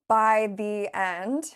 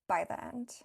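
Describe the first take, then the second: First: Each word is said slowly and clearly. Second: The words blur together with 'the' reduced. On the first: "like I just did in teacher mode" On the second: "In casual conversation"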